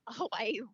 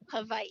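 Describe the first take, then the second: First: The middle consonant is a clear W sound. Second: The middle consonant is closer to a V sound. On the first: The speaker calls it wrong. "we're pronouncing uh, Hawaii uh, quite incorrectly" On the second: The speaker calls it right. "the W is is with more of a V sound"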